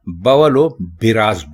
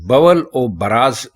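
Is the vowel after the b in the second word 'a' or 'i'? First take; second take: i; a. First: The second word starts with 'bi'. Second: The second word starts with 'ba'. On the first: The speaker calls it right. "बे के नीचे ज़ेर लगाएंगे" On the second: The speaker calls it wrong. "ये गलत है"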